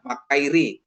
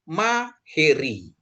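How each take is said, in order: First: The middle syllable is sounded kai. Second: The middle syllable is sounded he. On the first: The speaker calls it wrong. "kadang disebut makairi gitu ya, makairi, tapi kurang pas ya" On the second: The speaker calls it right. "tapi maheri"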